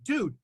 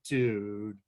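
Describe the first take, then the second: First: It sounds like a casual, friendly greeting. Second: It sounds dismayed and disappointed. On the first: It is a greeting. "If you were to say hello" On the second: The speaker is disappointed. "express consternation and disappointment"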